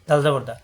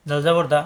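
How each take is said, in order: Both takes have the same delivery.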